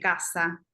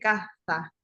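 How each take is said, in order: First: The middle consonant is an s sound. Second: The middle consonant is a th sound. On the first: "no dice caza de cazador" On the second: "con Z"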